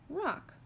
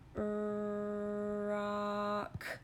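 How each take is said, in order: First: The word is said quickly as one whole word. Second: The word is stretched out slowly, sound by sound. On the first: "Say it fast" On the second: "Let's say it slow one more time"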